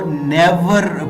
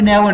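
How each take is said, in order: First: The final r sound is clearly pronounced. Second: The final r sound is dropped. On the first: The speaker calls it wrong. "मैं नेवर को नेवर pronounce नहीं कर रहा" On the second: The speaker calls it right. "रा sound को pronounce नहीं किया जाता"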